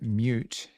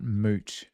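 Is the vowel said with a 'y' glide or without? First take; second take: with glide; without glide. First: The vowel starts with a 'y' glide, like 'myoot'. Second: The vowel has no 'y' glide, like 'moot'. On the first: The speaker calls it right. "it's very important that you pronounce it mute" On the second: The speaker calls it wrong. "and not moot"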